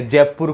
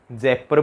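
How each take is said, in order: First: Said in the usual way. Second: जयपुर squashed into "Jaippar"; local mispronunciation. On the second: Shown as a demonstration. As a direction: say जयपुर as "Jaippar", losing the long oo. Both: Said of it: "जयपुर को जयपुर बोलते हैं".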